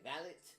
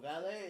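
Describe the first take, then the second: First: The final T is clearly pronounced. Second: The final T is silent. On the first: This is how people over there say it. "they don't have a silent T. They say valet" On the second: This is the familiar way of saying it.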